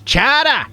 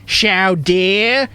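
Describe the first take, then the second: First: It is said with a plain American accent. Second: It is said with a French-sounding accent. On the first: The speaker calls it right. "it's chowder!" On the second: The speaker calls it wrong. "Say it right, Frenchie!"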